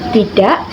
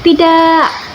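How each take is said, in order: First: The word is said short and plain. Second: The word is drawn out with emotion. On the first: The friend will not react much. "kamu hanya bilang tidak" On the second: The refusal carries strong feeling. "di dalam kata-kata ini ada emosinya"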